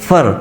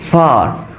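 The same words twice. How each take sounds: First: The word is said in reduced form. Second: The word is said in full form. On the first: "په weak palm کې به دا مونږ وایو" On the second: "په strong palm کې دا څه راځي"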